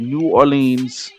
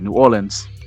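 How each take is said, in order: First: The city name is pronounced in a fancy way. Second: The city name is pronounced in a local way. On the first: The speaker calls it wrong. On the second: The speaker calls it right.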